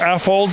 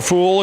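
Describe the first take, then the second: First: It is said as the club's acronym name. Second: It is said to sound like 'a fool'. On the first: This is the accepted name. The speaker calls it right. "as they're called" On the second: This is a joking mispronunciation. The speaker calls it wrong. "if you want to mispronounce it"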